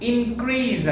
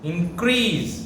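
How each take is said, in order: First: The stress is on the first syllable. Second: The stress is on the second syllable. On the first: The word is used as a noun. "First సిలబల్ని గట్టిగా పలికితే అది noun" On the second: The word is used as a verb. "Highlighting the second syllable"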